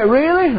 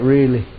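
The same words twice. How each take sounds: First: Much higher, amazed Really?; Really? asked high in disbelief; surprised question. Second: Lower, calm and firm Really; Really. said low to settle her doubt; reassuring answer. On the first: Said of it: "She said". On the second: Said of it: "I said". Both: Retold or imitated.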